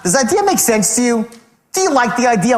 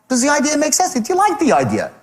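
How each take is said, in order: First: The tone sounds condescending and talking down. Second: The tone sounds light, casual and curious. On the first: The listener is treated as stupid. The speaker calls it wrong. "Not, ... moron?" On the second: The speaker is just curious and relaxed. The speaker calls it right. "No big deal. Just really, really just curious to know"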